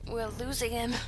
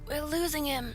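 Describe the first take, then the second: First: It is said in a disappointed way. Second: It is said without disappointment.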